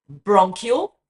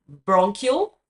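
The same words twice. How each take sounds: The two takes are said the same way.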